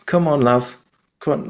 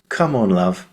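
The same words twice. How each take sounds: First: Higher northern English mum, coaxing; northern English accent. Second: The mum's line in a plain southern English accent. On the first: Retold or imitated. Actor imitating the mum comforting her daughter, northern English accent. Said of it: "but he'd be like". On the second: Shown as a demonstration. Actor quoting the mum's line, southern English accent. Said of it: "I say it in my southern accent here in the U K".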